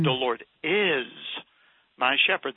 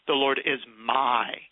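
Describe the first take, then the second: First: The stress is on the word is. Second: The stress is on the word my.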